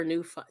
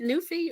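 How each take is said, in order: First: "Newfi-" with an eye ending; Newfi- ending in "fye". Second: "Newfie" with an ee ending; Newfie ending in "fee". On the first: Checking the other way to say a name, "Newfi-" as NOO-fye. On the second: Checking how to say a viewer's name, "Newfie" as NOO-fee. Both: Shown as a demonstration. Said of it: "Is it Newfie or Newfi".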